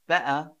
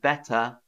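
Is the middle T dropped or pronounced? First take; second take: dropped; pronounced. First: The middle T is dropped to a glottal catch. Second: The middle T is clearly pronounced. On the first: "I would probably say" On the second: "instead of"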